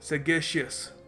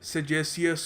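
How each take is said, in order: First: The second consonant is a hard 'g' sound. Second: The second consonant is a soft 'j' sound. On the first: The speaker calls it right. "प्रोनाउंस करने का सही तरीका है सेगेशियस" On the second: The speaker calls it wrong. "सेजेसियस होगा ये"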